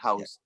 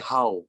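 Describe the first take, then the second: First: The final consonant sound is clearly pronounced. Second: The final consonant sound is dropped. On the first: "Itu kan masih bisa terdengar kan" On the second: "nek wong Vietnam iku ngomong ki how"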